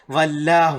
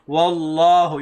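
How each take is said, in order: First: It starts with v, lower lip touching teeth. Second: It starts with w, lips rounded, no teeth. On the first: The speaker calls it wrong. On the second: The speaker calls it right. "You have to keep your mouth, I mean, rounded"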